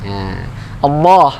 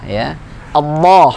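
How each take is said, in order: The two takes are said the same way.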